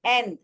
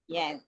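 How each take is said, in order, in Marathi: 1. शब्दाची सुरुवात थेट स्वराने होते. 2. शब्दाची सुरुवात य ध्वनीने होते. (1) "इथे तुम्ही बघाल तर ए वापरलाय त्यांनी" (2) "य जो ये आहे वायचा उच्चार आहे"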